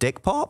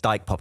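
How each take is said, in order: First: The first syllable has a short 'ih' vowel. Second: The first syllable has a long 'eye' vowel. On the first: The speaker calls it wrong. "we're playing this festival in the Netherlands called Dick Pop" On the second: The speaker calls it right.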